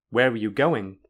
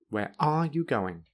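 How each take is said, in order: First: The strongest stress falls on the word going. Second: The strongest stress falls on the word are. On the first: "in a normal way, then the syllable with the most stress is go"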